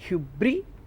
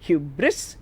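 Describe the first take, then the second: First: The word ends without a final S sound. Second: The word ends with a clear S sound.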